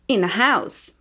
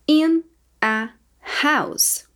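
First: In a house flowing together as one unit; linked naturally. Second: In a and house split apart by a pause; words said separately. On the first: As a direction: run In a house together smoothly. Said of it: "Depois eu vou falar mais naturalmente". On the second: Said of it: "Eu vou falar as palavras separadas". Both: Shown as a demonstration.

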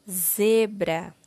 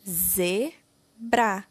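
First: Said in the usual way. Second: ZEBRA split into ze, bra; syllable by syllable. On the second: Shown as a demonstration. Teacher giving the name of the figure, syllable by syllable. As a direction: sound out ZEBRA with a gap between its syllables. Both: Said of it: "escreva o nome da figura".

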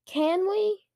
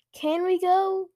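First: Put-on high, insistent child's plea; demanding. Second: Put-on higher, louder insistent kid's question; demanding. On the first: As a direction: press the question, pitch climbing. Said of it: "Luke demanded, ignoring Dad's request". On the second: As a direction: demand it like an impatient child. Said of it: "Luke demanded". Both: A narrator's reading.

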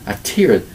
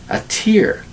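First: "tear" said as "teer", rhyming with "ear", at normal pitch; "tear" as teer, said calmly; tear like crying, settled. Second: "tear" said as "teer", rhyming with "ear", from high pitch; "tear" as teer, the drop from the eye; tear like crying. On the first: Teacher repeating "tear" as teer, rhymes with ear. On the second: Teacher showing "tear" as teer, rhymes with ear. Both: Shown as a demonstration. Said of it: "it's also pronounced".

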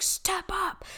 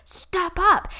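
First: Hushed whispered coaching; breathy urgent whisper; Tony Robbins. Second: High voiced coach call; high pep-talk repeat; Tony Robbins. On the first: Retold or imitated. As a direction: whisper it like a motivational coach leaning in. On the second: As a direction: lift it up high, pushing them forward. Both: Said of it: "He's like".

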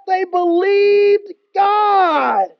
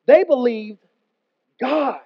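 First: A drawn-out, very slow shout of "They believed God"; shouted proclamation. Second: "They believed" then a pause and "God" set apart; stress on God. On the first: Acted. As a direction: proclaim it like the climax of the sermon. Preacher reads Bible line. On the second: Shown as a demonstration. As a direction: land the stress on "God", not Jonah. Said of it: "Notice they didn't say they believed Jonah".

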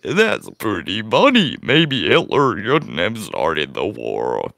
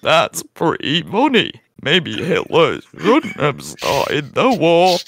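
First: Slow, low drawn-out put-on voice; a deep, dragging caricature of a streamer; Brutus impression. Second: Slow, exaggerated English accent with swooping pitch; hammed-up English drawl. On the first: Host fumbling an impression of a streamer, deep and drawn-out. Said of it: "figure this out in an English accent". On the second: Host retrying an impression of Brutus, hammed-up English accent. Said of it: "Let me figure this out in an English accent".

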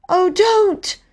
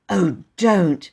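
First: Put-on very high, pleading girl's cry. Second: Understated plea, in an everyday register; gentle remonstrance. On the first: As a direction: beg him to stop. Bobby pleads with station master. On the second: Acted. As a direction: mildly beg him not to. Bobby mildly objects to Peter.

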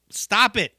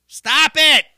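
First: Said in the usual way. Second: Exasperated yell. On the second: Real, not acted. Ranting at mumble rappers, loud exasperated shout. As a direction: Stop it shouted higher and louder. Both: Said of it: "repeated stop it".

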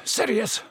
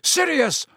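First: Said in the usual way. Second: High desperate yell of Sirius. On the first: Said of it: "Lupin panted". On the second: A narrator's reading. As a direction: shout the name to stop him. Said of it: "Lupin yelled".

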